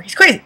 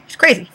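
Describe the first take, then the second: First: Higher-pitched "He's crazy."; "crazy" lifted high in disbelief; raised crazy. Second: Said in the usual way. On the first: Real, not acted.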